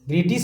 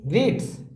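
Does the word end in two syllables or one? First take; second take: two syllables; one syllable. First: An extra vowel is added before the final s. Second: The word ends directly in ts, one syllable. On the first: The speaker calls it wrong. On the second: The speaker calls it right.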